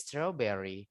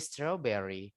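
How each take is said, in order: First: The r sound is barely pronounced. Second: The r sound is barely pronounced.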